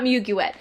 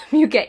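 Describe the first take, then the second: First: Muguet misread as "MYOO-gyoo-et"; mistaken pronunciation. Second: Muguet said as "myoo-GAY"; corrected pronunciation. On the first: Perfume reviewer showing her earlier slip, muguet as "myoo-gyoo-et". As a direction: sound out muguet letter by letter, "myoo-gyoo-et" with the t heard. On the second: Perfume reviewer correcting herself after looking it up, muguet as "myoo-GAY". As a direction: say muguet French-style, ending in "gay" with a silent t. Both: Shown as a demonstration. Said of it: "Muguet, not muguet".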